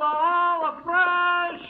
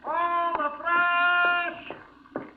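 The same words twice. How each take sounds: First: Sung, drawn-out, slow high vendor call; sung, stretch the cry like a peddler; sung, street vendor cry. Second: Sung, long, high drawn-out vendor call; sung, street vendor cry. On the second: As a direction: sing it out to the whole street. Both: Acted. Vendor calling out his wares.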